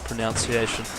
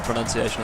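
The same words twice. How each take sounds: First: The second syllable sounds like 'noun'. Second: The second syllable sounds like 'nun'. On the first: The speaker calls it wrong. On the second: The speaker calls it right.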